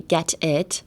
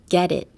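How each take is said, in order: First: The T in the middle is a clear T. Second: The T in the middle sounds like a D. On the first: The speaker calls it wrong. "you don't have to say get it" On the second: The speaker calls it right. "It's almost like a D sound"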